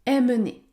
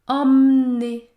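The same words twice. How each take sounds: First: The first vowel is oral; the middle e is heard. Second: The first vowel is nasal; the middle e is silent. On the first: The speaker calls it wrong. "Il ne faut pas dire emmener" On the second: The speaker calls it right. "La bonne prononciation de ce mot est donc emmener"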